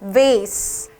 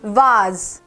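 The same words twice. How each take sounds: First: It is said with an American accent. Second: It is said with a British accent. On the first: "미국에서는" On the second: "영국에서는"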